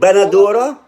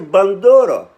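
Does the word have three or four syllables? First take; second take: four; three. First: The word is said with four syllables. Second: The word is said with three syllables. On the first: This is how the Lebanese listener says it. "You say" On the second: This is how the speaker personally says it. "I say bandora"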